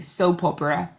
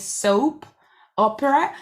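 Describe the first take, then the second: First: The two words run together as one. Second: The two words are said separately.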